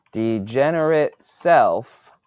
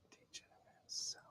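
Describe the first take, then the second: First: Said in the usual way. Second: Hushed, breathy whisper on degenerate self. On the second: Shown as a demonstration.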